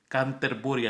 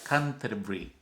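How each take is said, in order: First: It is read letter by letter, Spanish style. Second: It is said with English pronunciation. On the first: "así se escribe" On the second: "Se pronuncia Canterbury"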